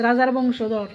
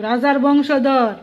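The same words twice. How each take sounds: First: Said in the usual way. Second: রাজার বংশধর drawn out slowly, weight on বংশধর; slow respectful stress. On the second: Shown as a demonstration. Demanding respect for the royal heir, slow and stressed. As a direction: lean on বংশধর, slow and deliberate. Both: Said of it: "একটু সম্মান দো".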